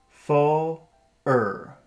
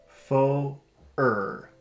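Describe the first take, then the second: No difference in how they are said.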